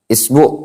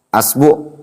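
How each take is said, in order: First: The word begins with an i vowel. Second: The word begins with an a vowel. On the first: "isbi dengan mengkasroh" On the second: "Boleh antum antum fathah"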